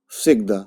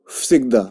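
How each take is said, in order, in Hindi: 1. शब्द voiceless f की आवाज़ से शुरू होता है। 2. शब्द voiceless f की आवाज़ से शुरू होता है।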